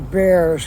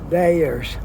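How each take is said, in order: First: It sounds like the animal, bear. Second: It sounds like the aspirin brand Bayer. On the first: This is how the locals say it. "They say Bears, like a, a grizzly bear" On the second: This is how a newcomer reads the spelling. "The locals here don't say Bayers"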